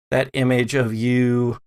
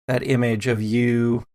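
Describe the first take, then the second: No difference in how they are said.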